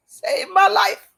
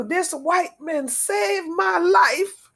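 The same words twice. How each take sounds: First: Real overflowing thanks, shouted out; emotional shout. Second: Slow, each word weighed with gratitude; heartfelt and unhurried, a bit higher; slow earnest testimony. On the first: Repeating in strong emotion. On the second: Testifying to her rescuer. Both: Real, not acted.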